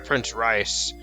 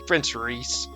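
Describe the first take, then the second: First: The name is said with a non-'ee' vowel. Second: The name is said with an 'ee' vowel. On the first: The speaker calls it wrong. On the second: The speaker calls it right.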